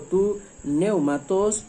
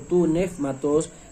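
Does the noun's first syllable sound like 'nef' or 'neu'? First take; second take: neu; nef. First: The first syllable is said with an 'eu' vowel. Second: The first syllable is said with an 'ef' sound. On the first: "según la pronunciación erasmiana" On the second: "según la pronunciación reucliniana"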